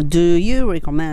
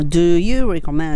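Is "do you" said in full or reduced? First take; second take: full; full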